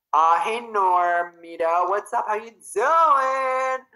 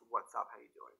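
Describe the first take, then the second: First: High, drawn-out, sing-song hello; bubbly slow hello; excited greeting. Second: Said in the usual way. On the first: Real, not acted. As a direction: stretch the greeting out happily. Greeting a viewer by name.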